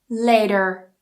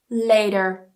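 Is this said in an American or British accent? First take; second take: American; American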